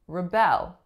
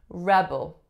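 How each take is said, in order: First: The stress is on the second syllable. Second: The stress is on the first syllable. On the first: It is used as a verb. "flip-flops position" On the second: It is used as a noun. "the strongest syllable is the first"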